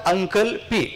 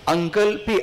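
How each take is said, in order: No difference in how they are said.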